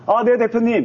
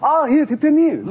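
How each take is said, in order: First: It is said in a low, subdued voice. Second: It is said in a high, energetic voice.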